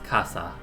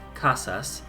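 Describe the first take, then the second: First: The final s sound is dropped entirely. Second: The final s sound is clearly pronounced.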